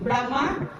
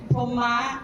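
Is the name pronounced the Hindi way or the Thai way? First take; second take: Hindi; Thai. First: The name is said the Hindi way, Brahma. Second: The name is said the Thai way, Poma. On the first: "in Hindi is pronounced Brahma" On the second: "in Thai we pronounce Poma"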